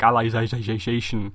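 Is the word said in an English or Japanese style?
Japanese. It is said with Japanese-style pronunciation. Someone else said it this way. The speaker calls it wrong. "it's very like Japanese pronunciation"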